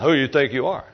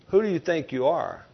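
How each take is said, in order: First: It is said in a sarcastic, mocking tone. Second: It is said as a sincere, genuine question.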